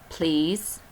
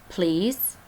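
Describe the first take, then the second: Both takes have the same delivery.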